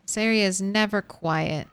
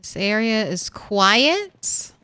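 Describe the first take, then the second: First: Never pressed, softer and falling; This area is never quiet, dry and falling; stress on never. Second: Quiet drawn out slowly with a rising tune; This area is quiet, slow, ending on a hopeful rise; stress on quiet. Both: Shown as a demonstration.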